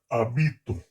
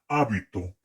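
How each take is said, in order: First: The stress is on the second syllable. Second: The stress is on the first syllable. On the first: It is the present tense, first person. "la primera persona del modo indicativo, del presente" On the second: It is a noun meaning a habit. "el nombre está en esdrújula"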